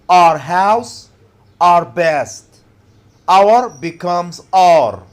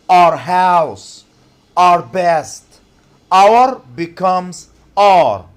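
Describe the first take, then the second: Both takes have the same delivery.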